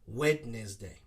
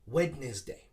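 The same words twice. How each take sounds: First: Every syllable is pronounced, giving three syllables. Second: The same.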